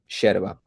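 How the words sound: It starts with an 'sh' sound, River Plate Spanish.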